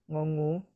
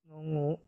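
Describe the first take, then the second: The two takes are said the same way.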